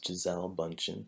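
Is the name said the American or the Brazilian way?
American. The name is said with an American pronunciation. The speaker calls it wrong. "what we say here in the U S is"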